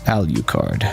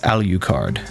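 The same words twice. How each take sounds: First: The middle U is heavily stressed, said 'yoo'. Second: The middle U is heavily stressed, said 'yoo'.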